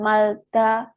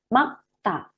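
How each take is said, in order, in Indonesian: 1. Bunyi l muncul tepat sebelum ta. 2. Hanya bunyi k yang muncul tepat sebelum ta. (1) "Bukan malta" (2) "Tetapi ini makta. Yang dilafalkan huruf G-nya"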